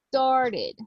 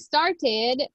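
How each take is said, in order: First: The middle T is softened, not sharply pronounced. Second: The middle T is pronounced clearly and sharply. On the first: "or we can say started" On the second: "if the mark T sound is what you prefer"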